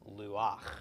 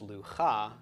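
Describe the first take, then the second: First: The a vowel comes before the final ch. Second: The a vowel comes after the final ch. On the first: The speaker calls it right. "but instead luach" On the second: The speaker calls it wrong. "this is not pronounced lu-cha"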